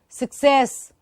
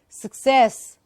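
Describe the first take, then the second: The two takes are said the same way.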